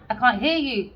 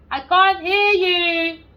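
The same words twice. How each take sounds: First: Said in the usual way. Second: High, loud, slow shout; mock shout. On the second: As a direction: bellow it as if down a bad line. Mock deaf to caller.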